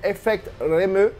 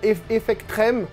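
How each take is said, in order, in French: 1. Le nom est prononcé à la japonaise. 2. Le nom est prononcé de façon simple, sans accent japonais.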